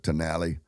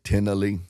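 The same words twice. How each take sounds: First: The name is said with an American pronunciation. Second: The name is said with an Indian pronunciation. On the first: "Americans might pronounce it" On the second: "the Indians call it"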